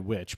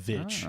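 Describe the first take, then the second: First: The word begins with a W sound. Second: The word begins with a V sound. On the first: "people say which" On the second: "it was two V's"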